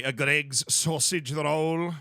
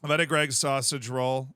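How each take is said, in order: First: Slow, exaggerated British accent; drawn-out British "sausage roll". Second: Said in the usual way. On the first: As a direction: put on a British accent, stretching the words. Redoes phrase in British accent.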